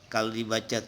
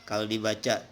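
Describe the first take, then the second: The two takes are said the same way.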